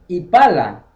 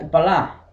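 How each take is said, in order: First: The stress is on the second syllable. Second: The stress is on the last syllable. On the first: The speaker calls it wrong. "no se pronuncia Ipala" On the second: The speaker calls it right. "se pronuncia Ipalá"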